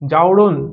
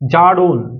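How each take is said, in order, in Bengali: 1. প্রথম স্বরধ্বনিটি a থেকে o-তে গড়িয়ে যায়। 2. প্রথম স্বরধ্বনিটি সাধারণ a ধ্বনি।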